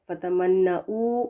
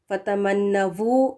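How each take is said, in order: First: The final syllable begins with a glottal stop. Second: The final syllable begins with v. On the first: "हमज़ा पेश ... ये भी गलत होगा" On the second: "वी लगाकर पढ़ें ... गलत है"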